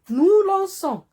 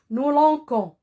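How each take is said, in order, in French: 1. Le c se prononce comme un s doux. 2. Le c se prononce comme un k dur.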